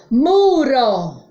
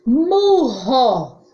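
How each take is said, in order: First: "Muro" with a single tapped R; weak R. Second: "Murro" with RR like H; strong R. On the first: Teacher contrasts sounds for pupils, weak tapped R in "Muro". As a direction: sound out "Muro", tongue flicking once on R. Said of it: "Som fraco". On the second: Teacher contrasts sounds for pupils, strong h-like RR in "Murro". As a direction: sound out "Murro", breathy h in the middle. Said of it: "Som forte". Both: Shown as a demonstration.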